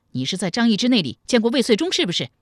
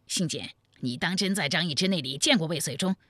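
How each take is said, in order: First: Loud, fast, raised interrogation; angry bark. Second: Restrained, puzzled query; questioning friend. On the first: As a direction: demand a confession sharply. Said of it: "怒视着新建喝道". (怒声喝问) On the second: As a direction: ask a friend to confirm, without shouting. Friend questions him after the outburst. (不高声地疑惑追问) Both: Acted.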